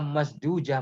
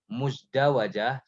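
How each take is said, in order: First: The word is said with three syllables. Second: The word is said with four syllables. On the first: The speaker calls it wrong. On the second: The speaker calls it right.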